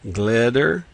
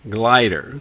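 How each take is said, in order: First: The first vowel is a short i sound. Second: The first vowel is a long i sound. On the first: "Try the short sound" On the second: "try the long sound"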